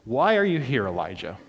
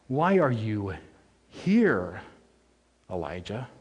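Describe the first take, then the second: First: The word here has no special emphasis. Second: The word here carries extra emphasis.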